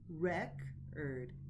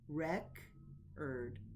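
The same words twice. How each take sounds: First: The stress is on the first syllable. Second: The stress is on the first syllable.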